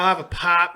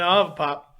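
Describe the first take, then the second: First: It is said in an exaggerated hillbilly voice. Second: It is said in the speaker's normal voice.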